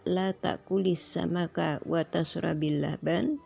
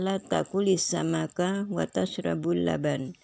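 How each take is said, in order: First: The verb before laban ends in an i vowel. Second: The verb before laban ends in a u vowel. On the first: Do not eat fish and do not drink milk either. "kalau dibaca" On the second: Do not eat fish, but you may drink milk. "bisa pula dibaca"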